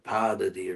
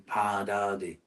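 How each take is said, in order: First: One of the first two syllables is stressed. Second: The first two syllables are both held long. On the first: The speaker calls it wrong. "typically an American speaker will say something like Padadi or Padadi" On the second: The speaker calls it right. "but it's actually Padadi"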